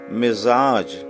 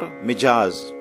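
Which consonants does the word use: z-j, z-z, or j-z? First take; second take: z-j; j-z. First: A z comes first, then a j. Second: A j comes first, then a z. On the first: The speaker calls it right. "This sound should be very carefully pronounced" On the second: The speaker calls it wrong. "Or Mijaz"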